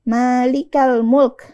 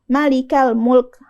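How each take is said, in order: First: The first vowel of Malik is long. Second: The first vowel of Malik is short. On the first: The speaker calls it right. "Kita panjangkan huruf ma-nya" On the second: The speaker calls it wrong.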